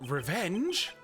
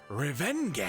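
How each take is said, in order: First: It is said with a put-on German accent. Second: It is said in a plain, natural accent.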